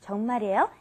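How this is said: The voice rises at the end. Is that so?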